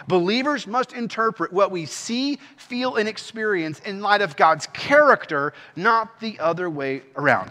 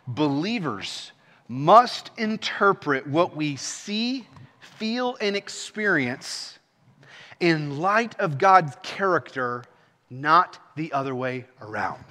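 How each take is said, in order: First: Said in the usual way. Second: Slow, measured key statement with pauses; slow, deliberate emphasis. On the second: Real, not acted. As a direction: set out each phrase slowly and let it land. Key statement delivered slowly, then repeated.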